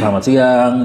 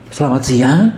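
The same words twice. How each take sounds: First: It is said in a serious, authoritative way. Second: It is said in a silly, comic way.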